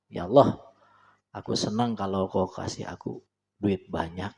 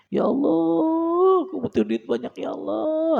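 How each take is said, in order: First: Plain, quietly confident asking; calm steady prayer. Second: Much higher, slow pleading whine; whiny begging prayer. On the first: Preacher demonstrating the right calm prayer to God. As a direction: pray simply but firmly. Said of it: "biasa aja, tapi mantep". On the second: Preacher mocking a needy prayer, high pleading whine. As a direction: beg God in a drawn-out whine. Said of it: "Ah, itu kurang keren itu". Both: Shown as a demonstration.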